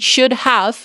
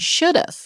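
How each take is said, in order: First: Both words are said fully and separately. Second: The words are contracted into one syllable. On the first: "En vez de decir should have" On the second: "hay personas que dicen should have"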